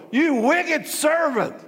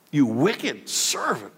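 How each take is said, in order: First: Slow, higher and strained king's roar. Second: Said in the usual way. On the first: Acted. King roaring at the wicked servant, slow furious roar. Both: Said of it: "The king roared".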